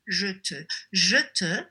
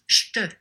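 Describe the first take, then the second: First: Both words are said in full, two syllables. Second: The first vowel drops, giving one syllable. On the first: It is the formal, written style. "you would say in a book you would read" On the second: It is the informal spoken style. "Je te becomes j'te"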